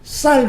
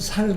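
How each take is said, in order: First: The first consonant is tense and strong. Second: The first consonant is a plain soft s. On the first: The speaker calls it right. "쌀 그러면" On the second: The speaker calls it wrong. "일본 사람들 보고 쌀이라 그러면 살이라"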